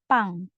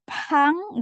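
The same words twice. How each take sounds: First: The first consonant is tense without air. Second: The first consonant has a puff of air. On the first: The speaker calls it right. "Ini kan P-nya yang tebal ya. Jadi pang" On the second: The speaker calls it wrong. "Bukan pang, nggak pakai H ya"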